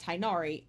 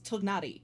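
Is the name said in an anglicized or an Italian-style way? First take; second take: anglicized; Italian-style. First: The name is said with an anglicized pronunciation. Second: The name is said with an Italian-style pronunciation. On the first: The speaker calls it wrong. "His name is not Tainari" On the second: The speaker calls it right. "it is Tugnari"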